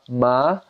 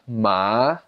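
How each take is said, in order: First: The pitch rises from low to high. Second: The pitch dips down then rises. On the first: "the second tone goes up" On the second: "third tone goes down and up"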